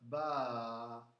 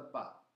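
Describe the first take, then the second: First: The vowel is held long. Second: The vowel is short. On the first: "se io metto qua la alef" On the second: "se mette solo la stanchetta senza la lettera A"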